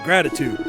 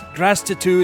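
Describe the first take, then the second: First: No extra s sound comes before the t. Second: An extra s sound comes before the t. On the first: The speaker calls it right. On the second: The speaker calls it wrong.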